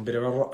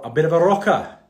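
First: Said in the usual way. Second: Put-on dubious Welsh accent, higher and louder; mock Welsh accent. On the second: Host jokingly admitting his music taste, mock Welsh accent. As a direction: throw in a loud, lilting pretend Welsh accent. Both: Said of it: "had to do that in a Welsh accent".

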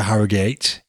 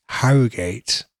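First: Said in the usual way. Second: Harrogate said in a mock posh voice, set apart from the plain version before it; posh pronunciation. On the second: Shown as a demonstration. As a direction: repeat Harrogate as if putting on airs. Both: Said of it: "Nice and posh".

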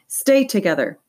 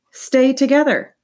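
First: Said in the usual way. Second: Slower, higher, louder stay together; emphatic repeat. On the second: A narrator's reading. Boy echoing his mom's warning, emphatic. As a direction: press each word of "Stay together". Mom's advice echoed, stressed.

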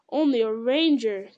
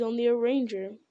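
First: Loud, emphatic echo of ONLY A RANGER; indignant exclamation, ONLY and RANGER punched; exclaiming cry. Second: Said in the usual way. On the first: A narrator's reading. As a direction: throw back "Only a ranger!" in loud protest. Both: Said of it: "cried Gandalf".

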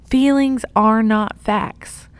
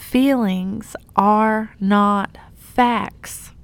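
First: Feelings are not facts, said again a little louder; repeated emphasis. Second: Feelings are not facts, said slowly and deliberately; slow emphasis. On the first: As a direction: repeat it with weight. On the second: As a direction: lean on each word, slowly. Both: Shown as a demonstration. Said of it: "Let me say that again".

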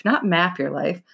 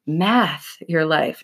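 First: Said in the usual way. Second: "Math" drawn out slowly and pressed hard; slow, deliberate "Math your life"; stress on math. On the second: Shown as a demonstration. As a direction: lean on "Math" to set it against "map".

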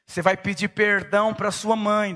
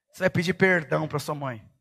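First: Insist, pressing the word perdão; stern father. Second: Lower, firm command with weight on vai; stern father. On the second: Father ordering his little son to apologize, lower and stern. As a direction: lay down the law to the toddler. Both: Retold or imitated. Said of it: "Eu falei".

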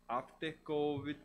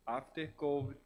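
No difference in how they are said.

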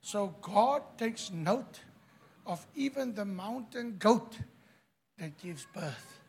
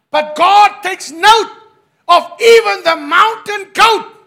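First: Soft, hushed preacher's remark; quiet. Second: Loud preaching. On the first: Quiet first take, later shouted. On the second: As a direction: proclaim it at full voice. Shouted second take. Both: Acted.

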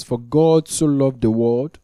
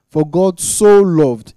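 First: Said in the usual way. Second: "so" drawn out, louder and higher; stress on so. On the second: Shown as a demonstration. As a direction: lean hard on "so" in "For God so loved". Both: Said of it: "there's an emphasis on so".

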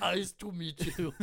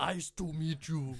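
First: Slow, heavy Austrian action-star voice; Schwarzenegger impression. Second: Schwarzenegger impression. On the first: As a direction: do Arnold again. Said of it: "how to do an Arnold Schwarzenegger dialect". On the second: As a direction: do your best Arnold. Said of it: "that's the best one I can do". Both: Shown as a demonstration.

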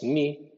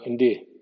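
First: "ni" plain, no D; a bare "ni"; wrong "ni". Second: "ndi" with a light D after the N; right "ndi" syllable; correct "ndi". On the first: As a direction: incorrect "ni" syllable. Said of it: "no es N I". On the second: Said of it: "N más D". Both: Shown as a demonstration.

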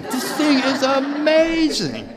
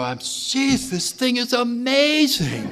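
First: Much higher, louder, slow laughing shout; amazed shout. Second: High-pitched amazed exclaiming; excited, amazed. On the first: Repeating his amazement at the message, shouted with a laugh. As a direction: belt it out in laughing wonder. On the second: Recalling his own thrill at the message, high and amazed. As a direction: gush with wonder at the message. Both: Retold or imitated. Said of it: "I go".

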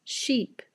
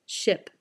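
First: "Sheep" with long tense ee. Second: "Ship" with short relaxed ih. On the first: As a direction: stretch the ee in "Sheep". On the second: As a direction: clip the vowel short in "Ship". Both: Shown as a demonstration. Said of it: "listen again and repeat each word".

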